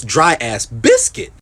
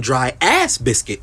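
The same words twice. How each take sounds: First: Slow phrase, weight landing on "biscuit"; stress on BISCUIT. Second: "ass" stretched and hit hard, slow phrase; stress on ASS. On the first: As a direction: move the emphasis off "ass" onto "biscuit". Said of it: "That's like you saying". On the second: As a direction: punch "ass" rather than "biscuit". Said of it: "Why did you put the emphasis on ass?". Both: Shown as a demonstration.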